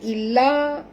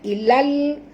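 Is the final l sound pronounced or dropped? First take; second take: dropped; pronounced. First: The final l is dropped. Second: The final l is clearly pronounced. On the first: The speaker calls it wrong. "bukan illa" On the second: The speaker calls it right. "lam itu berbunyi"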